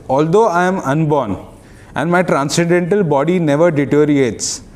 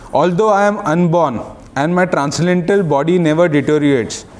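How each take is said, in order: No difference in how they are said.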